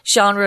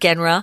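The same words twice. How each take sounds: First: It is said with a French-style pronunciation. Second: It is sounded out plainly, letter by letter. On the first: The speaker calls it right. "It's a French word, so we say it weird" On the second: The speaker calls it wrong. "We don't say genre"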